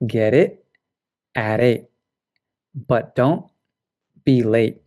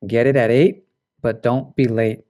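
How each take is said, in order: First: "get it at eight, but don't be late" with final T's cut off in the throat, words apart; glottal stops, slow. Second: "Get it at eight, but don't be late" linked, get's T tapped into it; connected speech. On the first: Teacher demonstrating glottal stop T word by word. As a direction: stop each T in the throat, pausing between. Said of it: "it's this glottal stop". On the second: Teacher showing the same sentence in connected speech. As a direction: run the words together smoothly. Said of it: "connected speech". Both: Shown as a demonstration.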